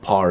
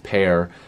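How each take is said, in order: First: The vowel sounds like the one in 'car'. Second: The vowel sounds like the one in 'care'. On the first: The speaker calls it wrong. "it's not par" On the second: The speaker calls it right. "it's pair"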